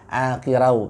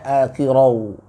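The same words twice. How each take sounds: First: The r is pronounced thin and light. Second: The r is pronounced thick and heavy. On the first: The speaker calls it wrong. "Tadi terbaca saya dengar akirau" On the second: The speaker calls it right. "tapi seharusnya akirau"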